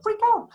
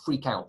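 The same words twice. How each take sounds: First: High, loud mock-panicked cry; sudden very high-pitched yelp of the words; mock freak-out. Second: Said in the usual way. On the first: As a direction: squawk it out in sudden mock alarm. Acts out the battlefield freak-out.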